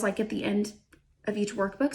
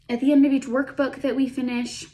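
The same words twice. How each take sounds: First: Talking through hiccups; hiccuping. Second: Said in the usual way. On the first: Real, not acted. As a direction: hiccups breaking the words. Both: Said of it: "I have the hiccups all of a sudden".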